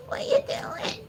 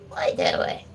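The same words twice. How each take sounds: First: "What you doing?" squeaked very high; squeaky pet voice. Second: "What you doing?" whispered very low. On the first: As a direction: squeak it up at the dog like a toy. Cooing at the dog. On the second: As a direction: hush it down low to the dog. Teasing the dog. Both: Real, not acted.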